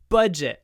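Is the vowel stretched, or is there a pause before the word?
pause before. A short pause comes before the first sound. The speaker calls it right. "We say budget with a pause"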